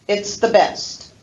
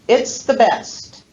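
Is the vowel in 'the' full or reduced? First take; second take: reduced; reduced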